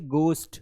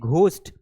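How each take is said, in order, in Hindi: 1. इसकी शुरुआत एक सादी, unaspirated g ध्वनि से होती है। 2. इसकी शुरुआत एक साँस वाली, aspirated g ध्वनि से होती है। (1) "ये है गोस्ट" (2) "एक्चुअल में ये घोस्ट नहीं है"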